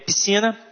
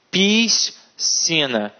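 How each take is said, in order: First: The two middle consonant letters make a single sound. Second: The two middle consonant letters are sounded separately. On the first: The speaker calls it right. "É piscina e nascer... o som é o mesmo" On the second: The speaker calls it wrong. "hipercorreção... elas falam"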